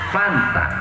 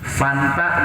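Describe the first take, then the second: First: The word begins with a P sound. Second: The word begins with an F sound.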